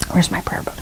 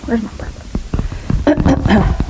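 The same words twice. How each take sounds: First: Whispered aside to herself. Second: Slow, drawn-out whisper. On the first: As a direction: hush it while searching. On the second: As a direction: whisper it slowly, searching. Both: Real, not acted.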